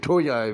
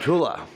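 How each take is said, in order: First: The middle consonant is a Y sound. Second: The middle consonant is an L sound.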